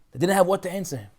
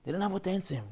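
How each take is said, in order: First: Said in the usual way. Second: They didn't have what to answer him, repeated much softer; hushed echo. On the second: Shown as a demonstration. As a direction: let the repeat fall to a hush.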